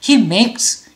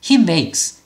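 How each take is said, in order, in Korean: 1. Makes는 한 음절로 소리 나요. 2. Makes는 한 음절로 소리 나요.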